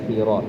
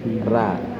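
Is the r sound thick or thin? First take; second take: thick; thin. First: The r sound is thick, with a rounded vowel. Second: The r sound is thin, with an open vowel. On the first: The speaker calls it wrong. "jangan khiro" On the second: The speaker calls it right. "tapi khira"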